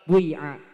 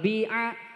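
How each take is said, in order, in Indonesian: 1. Vokal pertama mencampurkan u ke i. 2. Vokal pertama adalah bunyi i murni. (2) "ikhlasul kasri"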